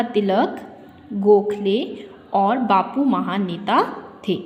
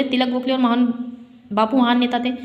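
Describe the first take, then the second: First: Slow, clear pause after Tilak and after Gokhale; pauses at commas. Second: Tilak Gokhale run together quickly; no comma pauses. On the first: Teacher making it clear for pupils, pausing after Tilak. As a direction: set Tilak and Gokhale apart, unhurried. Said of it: "जब हम बात को स्पष्ट कर रहे हैं". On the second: Teacher showing pupils an unclear reading, Tilak Gokhale run together. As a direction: rush the list, no break after Tilak. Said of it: "अगर हम इसको बोले". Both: Shown as a demonstration.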